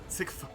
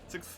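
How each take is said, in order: First: The final th sound is pronounced. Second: The final th sound is dropped. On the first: "I like sixth" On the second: "We just not put emphasis on the th"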